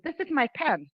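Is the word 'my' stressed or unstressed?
unstressed. The word 'my' is not stressed. "normally, uh, pronouns are not stressed"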